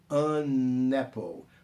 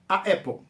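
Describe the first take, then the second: First: An n sound links the two vowels. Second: Two vowels collide with no linking sound. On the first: The speaker calls it right. "de maneira mais redondinha" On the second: The speaker calls it wrong. "uma pronúncia cacofônica, como se eu estivesse gaguejando"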